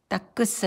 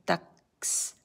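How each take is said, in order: First: An extra vowel sounds between the k and s. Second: The k and s are joined with no vowel. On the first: The speaker calls it wrong. "아니고" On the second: The speaker calls it right. "여기도 딱스"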